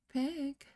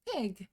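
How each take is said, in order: First: The word is said quietly and calmly. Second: The word is shouted suddenly and forcefully. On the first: The speaker calls it wrong. "she didn't say it like that" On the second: The speaker calls it right. "with such sudden violence"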